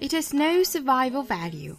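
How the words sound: It is said in a British accent.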